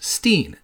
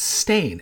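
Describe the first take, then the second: First: The vowel sounds like the one in 'line'. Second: The vowel sounds like the one in 'rain'. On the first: This is how many people remember the name. The speaker calls it wrong. "Stein, S-T-E-I-N" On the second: This is how the name is actually spelled. The speaker calls it right. "it's Stain, S-T-A-I-N"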